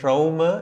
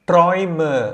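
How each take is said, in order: First: The vowel sounds like 'ow'. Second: The vowel sounds like 'oy'. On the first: The speaker calls it wrong. "சொல்லக்கூடாது" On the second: The speaker calls it right. "ஆய்"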